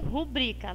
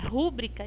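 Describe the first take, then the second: First: The stress is on the second syllable, bri. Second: The stress is on the first syllable, ru. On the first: The speaker calls it right. "é o bri que é a sílaba tônica" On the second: The speaker calls it wrong. "erra rúbrica, está errado porque ela não tem um acento aqui e ela não é uma proparoxítona"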